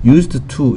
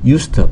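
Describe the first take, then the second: First: The two words are said separately and fully. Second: The two words are run together as one. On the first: The speaker calls it wrong. "이렇게 발음하지 않고" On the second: The speaker calls it right. "used to를 합쳐서 used 이렇게 발음한다"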